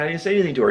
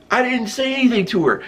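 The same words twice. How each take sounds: First: Said in the usual way. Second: Insist, rattled and higher; a guy about to be punched protesting higher; higher flustered protest. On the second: Retold or imitated. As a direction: pitch up, pleading innocence. Protesting again to attacker.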